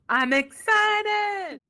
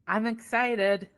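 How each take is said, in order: First: It is said with much emotion. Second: It is said with little emotion.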